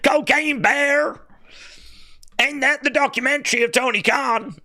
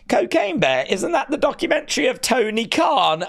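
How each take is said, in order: First: It is read in a put-on voice. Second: It is read in a natural voice.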